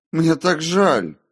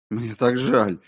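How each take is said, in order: First: Slow, loud, high wail of apology; drawn-out, high cry of regret; desperate remorse. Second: Higher-pitched cry of remorse; pained, raised apology; anguished apology. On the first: Remorse repeated more desperately. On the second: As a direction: plead how sorry you are. Remorse under accusation. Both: A narrator's reading.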